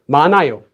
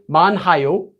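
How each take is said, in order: First: No h sound is pronounced before the second syllable. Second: An h sound is pronounced before the second syllable. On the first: The speaker calls it right. "You just say 많아요" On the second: The speaker calls it wrong. "You don't say 많아요. 많아요 would sound really weird"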